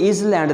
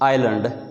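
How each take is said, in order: First: It starts with 'is', with a z sound. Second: It starts with 'eye', with no z sound. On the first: The speaker calls it wrong. "अब ये इज़ लैंड नहीं है" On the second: The speaker calls it right. "ये आइलैंड है"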